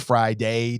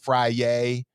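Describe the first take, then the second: First: The D sound in the middle is pronounced. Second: The D sound in the middle is dropped. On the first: "You can pronounce the D" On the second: "we don't pronounce the D here"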